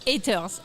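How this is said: It is said the Quebec French way.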